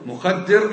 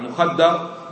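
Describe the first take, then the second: First: The middle syllable has the vowel i: mukhaddir. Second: The middle syllable has the vowel a: mukhaddar. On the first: It names the one that does the drugging. "اسم فاعل" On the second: It names the one that is drugged. "اسم مفعول"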